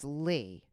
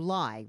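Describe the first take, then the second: First: The name rhymes with 'see'. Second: The name rhymes with 'eye'. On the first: The speaker calls it right. "the correct pronunciation is Lee" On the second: The speaker calls it wrong. "everybody called you Lai"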